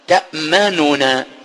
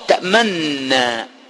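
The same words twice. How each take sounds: First: Two separate n sounds are pronounced. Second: The two n sounds merge into one. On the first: This is the original form of the word. "فأصل الكلمة قالوا" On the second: This is the assimilated form used in recitation. "بنون واحدة بدلا من نونين بالإدغام"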